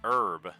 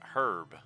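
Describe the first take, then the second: First: The word starts without an h sound. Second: The word starts with an h sound. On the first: "why do we pronounce it herb" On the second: "and not herb when there's a fucking H in it"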